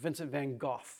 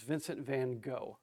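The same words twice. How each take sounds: First: The name is said the original, rarely heard way. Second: The name is said the common, everyday way.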